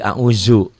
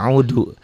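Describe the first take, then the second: First: The dhal sound is said as z. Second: The dhal sound is said as d.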